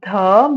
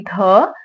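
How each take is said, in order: First: The consonant is said softly and lightly. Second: The consonant is said strongly and hard. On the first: The speaker calls it right. "sometimes the" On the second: The speaker calls it wrong. "but not strongly the"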